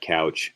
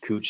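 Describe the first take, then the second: First: The vowel sounds like 'ow' in 'cow'. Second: The vowel sounds like 'oo' in 'moon'. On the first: The speaker calls it wrong. "not couch" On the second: The speaker calls it right. "That's how you say it"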